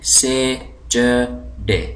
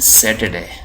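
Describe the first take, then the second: First: It is said with a British 'ch' sound. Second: It is said with an American 't' sound.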